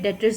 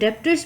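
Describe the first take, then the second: First: No b sound is heard before the t. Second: A b-like sound is heard before the t. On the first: "बी को silent करके डेटर्स भी pronounce होता है" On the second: "इसको डेप्टर्स भी कह सकते हैं"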